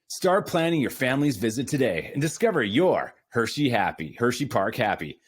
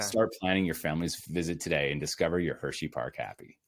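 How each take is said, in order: First: It sounds like a polished, selling announcer. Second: It sounds plain and authentic, just telling.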